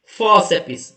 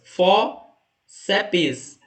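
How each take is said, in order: First: Said in the usual way. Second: "Fóceps" split in two, a clear pause after Fó; syllable by syllable. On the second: Shown as a demonstration. Teacher counting two syllables for students, "Fóceps" said syllable by syllable. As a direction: break "Fóceps" into Fó... ceps. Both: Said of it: "duas sílabas".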